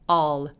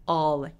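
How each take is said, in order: No difference in how they are said.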